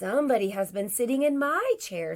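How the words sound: It is said in a medium, middle-pitched voice. "in her middle-sized voice"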